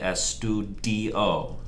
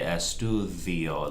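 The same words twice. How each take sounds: First: The D is pronounced as a hard stop. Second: The D is soft, like th in the. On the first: The speaker calls it wrong. "don't say estudio" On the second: The speaker calls it right. "Say estudio, like the, like T H E E"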